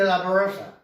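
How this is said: It is said with an English accent.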